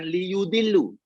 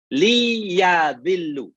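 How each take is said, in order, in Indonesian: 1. Vokal setelah y adalah u. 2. Vokal setelah y adalah a. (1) "bukan liyudillu" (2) "tapi liyadillu"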